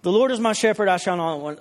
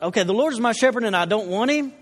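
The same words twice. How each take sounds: First: Said in the usual way. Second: Puzzled questioning take on "don't want him"; confused child reading. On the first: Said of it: "I read it in the King James". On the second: Retold or imitated. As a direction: read it like a kid who misunderstood, rising into a question. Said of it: "this kinda confused me".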